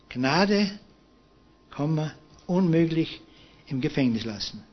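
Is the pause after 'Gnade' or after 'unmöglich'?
after Gnade. The pause comes after 'Gnade'. Pardon is granted and the prisoner is released. "hat das Komma nur um ein Wort nach links versetzt"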